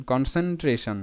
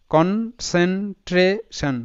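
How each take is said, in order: First: Said in the usual way. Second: কনসেন্ট্রেশন drawn out slowly, syllable by syllable; teacher breaking কনসেন্ট্রেশন into slow syllables. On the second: Shown as a demonstration. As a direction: stretch out কনসেন্ট্রেশন part by part. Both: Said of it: "কিভাবে উচ্চারণ করবে".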